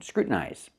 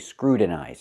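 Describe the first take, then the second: First: The T is stopped before the N. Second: The T is a quick tapped sound. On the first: The speaker calls it right. "we pronounce it as a stop T and go directly to the N" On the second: The speaker calls it wrong. "you cannot say scrutinize. I cannot make the T a fast T"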